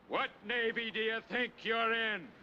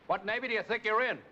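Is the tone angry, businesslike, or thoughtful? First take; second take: thoughtful; angry. First: It sounds slow, deep and thoughtful. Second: It sounds loud and angry.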